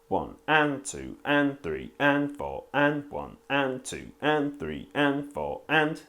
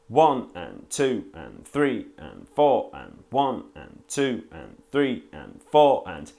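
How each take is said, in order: First: The ands are stressed; the numbers are weak. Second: The numbers are stressed; the ands are weak. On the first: "now accenting the upbeats" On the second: "accent the downbeats"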